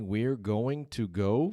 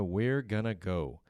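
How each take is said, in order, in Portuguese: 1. Going to é pronunciado por completo, com cada som claro. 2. Going to é reduzido para um rápido gonna. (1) "Que pode ser também we're going to go" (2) "se nós vamos pronunciar dessa forma como os nativos pronunciam"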